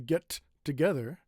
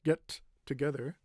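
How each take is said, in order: Both takes have the same delivery.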